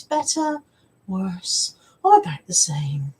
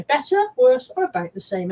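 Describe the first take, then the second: First: Eye-test optician voice. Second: Optician voice. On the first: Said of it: "will recognise that tone of voice". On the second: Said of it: "that tone of voice". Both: Retold or imitated.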